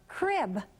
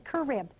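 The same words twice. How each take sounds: First: The c and r blend with no vowel between. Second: A vowel is inserted between the c and r. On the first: The speaker calls it right. "C R goes cr" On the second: The speaker calls it wrong. "we don't say crib"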